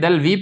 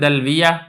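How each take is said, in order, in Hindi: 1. आखिरी ya के बाद कोई स्वर नहीं है। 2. आखिरी ya के बाद छोटा a आता है। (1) "इसको आप साकिन भी पढ़ सकते हैं" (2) "या फिर आप इसको पढ़ दें"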